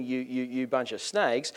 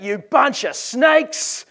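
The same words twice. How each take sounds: First: Said in the usual way. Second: High, drawn-out accusing yell; John the Baptist yelling. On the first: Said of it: "you know, ranting". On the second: Acted. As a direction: bellow the insult slowly across the room. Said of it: "and John yells out".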